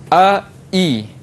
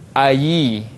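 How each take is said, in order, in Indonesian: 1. Suku kata kedua dimulai dengan hamzah penuh. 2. Suku kata kedua dimulai dengan bunyi y yang jelas. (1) "hamzah uh, sempurna" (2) "kita tukarkan kepada ya baris bawah"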